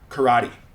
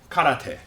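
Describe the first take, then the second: First: Said the English way, stressing the middle syllable. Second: Said with a Japanese pronunciation. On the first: "English speakers will pronounce this as karate" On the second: "in Japanese, it's pronounced karate"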